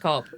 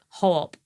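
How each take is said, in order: First: The word begins with a K sound. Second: The word begins with an H sound.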